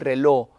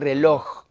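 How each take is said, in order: First: The final consonant is dropped. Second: The final consonant is clearly pronounced. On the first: This is how Venezuelans say it. The speaker calls it wrong. "Nosotros, por ejemplo, decimos el reloj" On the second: This is the neutral way preferred for broadcasting. The speaker calls it right. "es el reloj"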